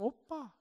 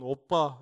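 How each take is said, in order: First: It is said in a high, thin voice. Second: It is said in a deep, thick voice.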